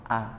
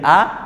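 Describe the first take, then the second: First: The vowel is lengthened. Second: The vowel is short. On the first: The speaker calls it wrong. "menjadi A, tambah satu huruf" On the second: The speaker calls it right. "dari A"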